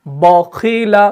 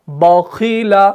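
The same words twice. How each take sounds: The two takes are said the same way.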